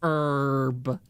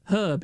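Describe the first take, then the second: First: The h at the start is silent. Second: The h at the start is sounded. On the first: The speaker calls it wrong. "I hate it how Americans just go herb" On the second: The speaker calls it right. "You pronounce it herb. It's not a silent H"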